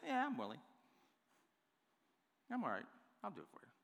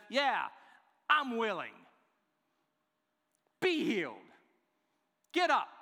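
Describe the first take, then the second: First: Offhand, indifferent agreement; casual, half-hearted. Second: Loud, high, emphatic declaration; impassioned preacher's shout in short bursts; passionate, forceful. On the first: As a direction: toss it off softly like a reluctant favor. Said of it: "I don't believe he says it like this". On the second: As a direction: command it with fierce conviction, each phrase punched out. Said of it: "this is how he says it". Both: Shown as a demonstration.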